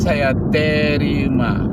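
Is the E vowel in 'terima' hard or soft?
hard. The E vowel in terima sounds hard. It follows a Minang or Batak accent. The speaker calls it wrong. "bukan saya terima"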